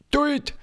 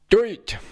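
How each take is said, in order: First: The word is said in standard German. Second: The word is said in Passau dialect. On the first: The speaker calls it wrong. "So wird es aber überhaupt nicht ausgesprochen" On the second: The speaker calls it right. "Duld heißt es"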